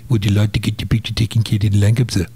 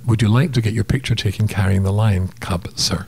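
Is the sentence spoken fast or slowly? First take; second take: fast; slowly. First: The sentence is spoken quickly. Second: The sentence is spoken slowly. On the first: "he said in his South African accent" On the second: "Slowing that down"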